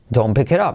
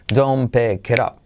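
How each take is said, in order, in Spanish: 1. La frase sube alto y luego baja. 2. La frase se dice con un ritmo regular y parejo. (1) "luego ya con entonación dirías no" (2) "Repítelo con ritmo"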